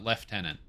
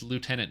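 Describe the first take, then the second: First: The word is said with an F sound. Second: The word is said without an F sound. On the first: The speaker calls it wrong. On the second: The speaker calls it right.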